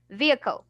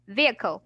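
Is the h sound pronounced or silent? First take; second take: silent; silent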